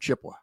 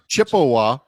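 First: The middle 'e' sound is dropped. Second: The middle 'e' sound is pronounced. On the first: The speaker is local. The speaker calls it right. "if you're not pronouncing the E. You're from Chippewa" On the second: The speaker is not local. The speaker calls it wrong. "no, you're not local"

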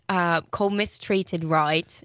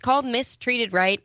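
First: It is spoken in a put-on Australian accent. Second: It is spoken in the speaker's natural accent.

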